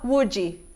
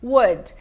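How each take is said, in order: First: It starts with a U sound and a strong D. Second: It starts with a W sound and a soft ending. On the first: The speaker calls it wrong. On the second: The speaker calls it right.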